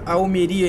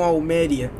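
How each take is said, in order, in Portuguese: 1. A tônica está na sílaba ri. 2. A tônica está na sílaba me. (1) "vocês viram que tem acento ali em Almeria? Por isso que eu sabia que o nome dessa cidade era Almeria" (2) "e não Almeria"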